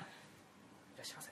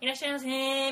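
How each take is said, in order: First: It is said in a plain natural voice. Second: It is said in a high-pitched shop voice.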